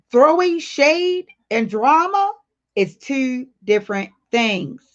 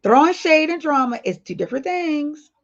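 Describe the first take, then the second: First: Slow, word by word: throwing shade and drama is two different things; slow and stressed. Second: Repeated at normal pace, stress on shade; restated, emphasis on shade. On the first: Telling chat the rule, slow and emphatic. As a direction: lay each word down slowly, rising on drama. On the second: Repeating the rule to chat, stressing shade. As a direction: say it again, punching shade. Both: Shown as a demonstration.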